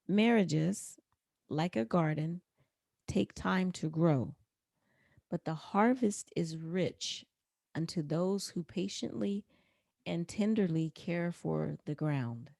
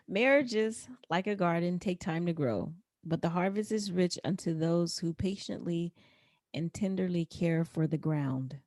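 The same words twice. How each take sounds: First: It is said more slowly. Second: It is said at a normal pace.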